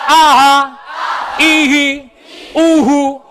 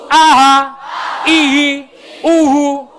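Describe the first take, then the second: Both takes have the same delivery.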